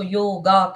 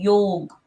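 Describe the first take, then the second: First: The word ends with an added final 'a' vowel. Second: The word ends on the final 'g' consonant. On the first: This is the English-style form of the word. The speaker calls it wrong. "English में हम उसको योगा कहते हैं, गलत pronunciation है" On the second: This is the original form of the word. The speaker calls it right. "सही pronunciation है योग"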